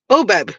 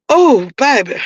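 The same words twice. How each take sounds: First: Said in the usual way. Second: Strained from coughing fit; winded, coughing voice; after coughing. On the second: Real, not acted. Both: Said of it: "I was smoking".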